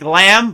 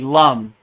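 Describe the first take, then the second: First: The vowel sounds like the a in cat. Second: The vowel sounds like the u in cup. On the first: The speaker calls it wrong. "So it looks like lamb" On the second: The speaker calls it right. "but it's really lum"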